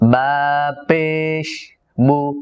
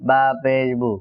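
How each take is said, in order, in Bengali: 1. b টা নরম, কোনো প্রতিধ্বনিময় ঝংকার নেই। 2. b টা জোরালো ও ভারী, প্রতিধ্বনিময় ঝংকার সহ। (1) "এমনটা যেন না হয়" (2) "এরকম যেন, মানে অর্থাৎ উচ্চারণের মধ্যে সর্বোচ্চ স্ট্রংলি আওয়াজটা আসবে"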